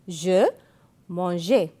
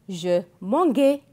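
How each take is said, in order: First: The g is said as a soft g. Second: The g is said as a hard g. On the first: The speaker calls it right. "Non, je dis je mangeais" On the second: The speaker calls it wrong. "je ne peux pas dire je mangeais"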